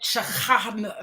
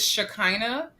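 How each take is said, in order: First: The name is said with Hebrew pronunciation. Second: The name is said with English pronunciation. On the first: "In Hebrew, it's like Shaka, something like that" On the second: "So I'll pronounce it in English"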